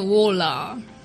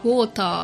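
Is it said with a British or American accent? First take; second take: American; British. First: The t is flapped like an r, American style. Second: The t is pronounced clearly, British style.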